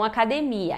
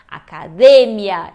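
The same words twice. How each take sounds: First: The stress is on the syllable 'mi'. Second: The stress is on the syllable 'de'. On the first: The speaker calls it wrong. "e não academia" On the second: The speaker calls it right. "o certo é academia"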